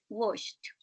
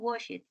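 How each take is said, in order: First: The ending is said as a t. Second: The ending is not said as a t. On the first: The speaker calls it right. "It's washed" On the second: The speaker calls it wrong. "No, it's not washed"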